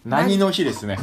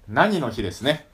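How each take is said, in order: First: The first word is said with a lower pitch. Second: The first word is said with a higher pitch.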